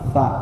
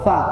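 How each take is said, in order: First: The consonant sound is held before the vowel. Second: The consonant goes straight into the vowel. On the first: The speaker calls it right. "Keluarkan dulu bunyi sukunnya Pak" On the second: The speaker calls it wrong. "nggak langsung sa"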